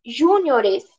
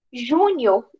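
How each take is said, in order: First: "Júniores" pronounced ju-ni-O-res; stress shifted to O. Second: "Júnior" with the beat on the first syllable; stress on JÚ. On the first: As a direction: hit the "o" in "Júniores". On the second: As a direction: hit "Jú" in "Júnior". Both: Shown as a demonstration. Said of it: "Com deslocamento de sílaba tônica".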